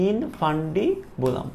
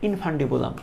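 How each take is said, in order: First: ইনফান্ডিবুলাম very slowly as in, fan, di, bu, lam; teacher spelling out ইনফান্ডিবুলাম by sound; syllable-by-syllable demo. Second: Said in the usual way. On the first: Shown as a demonstration. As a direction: stretch ইনফান্ডিবুলাম out with gaps between syllables. Teacher sounds out a new term.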